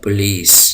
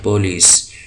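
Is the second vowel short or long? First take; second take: long; short. First: The second vowel is drawn out long. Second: The second vowel is short and pressed. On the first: "आप इसको बिल्कुल दबाव नहीं देंगे यहाँ पर, और जो खींचेंगे" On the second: "उर्दू में हम इसको पुलिस कहते हैं"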